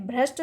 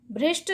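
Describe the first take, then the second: First: भ्रष्ट said with "ra", as "bhrasht"; correct pronunciation. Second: भ्रष्ट said with "ri", as "bhrisht"; wrong pronunciation. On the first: Teacher giving students the right form, भ्रष्ट as "bhrasht". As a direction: keep a short a after the r in भ्रष्ट. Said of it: "शब्द सही है". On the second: Teacher showing students the error, भ्रष्ट mispronounced "bhrisht". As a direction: put an i after the r in भ्रष्ट: "bhrisht". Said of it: "शब्द गलत है". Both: Shown as a demonstration.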